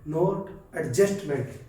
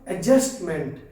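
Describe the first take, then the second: First: The d sound is clearly pronounced. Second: The d sound is left silent. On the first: The speaker calls it wrong. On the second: The speaker calls it right. "डी silent होगा ... तो क्या होगा, एडजस्टमेंट"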